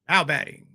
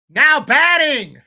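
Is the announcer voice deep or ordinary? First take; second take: deep; ordinary. First: It is said in a lowered, deeper voice. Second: It is said in an ordinary speaking voice. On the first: "get that low registry going" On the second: "I can't use my natural voice"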